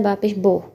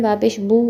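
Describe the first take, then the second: First: बा पेश बो ending in "o"; Persian pronunciation. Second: बा पेश बू ending in "oo"; Arabic pronunciation. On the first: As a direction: say the last बो as boh. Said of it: "मगर फ़ारसी में होता है". (बा पेश बो, "ओ" की आवाज़) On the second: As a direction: say the last बू as boo. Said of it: "Arabic में पढ़ते हैं". (बा पेश बू, "ऊ" की आवाज़) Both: Shown as a demonstration.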